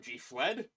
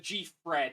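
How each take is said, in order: First: The second word is said with an L sound. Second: The second word is said with an R sound.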